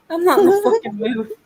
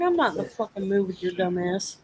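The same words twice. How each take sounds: First: Higher and louder, fed-up outburst; angry snap. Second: Said in the usual way. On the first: Retold or imitated. Telling off the girl who pissed her off, angry raised voice. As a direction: shut her down hard, voice raised.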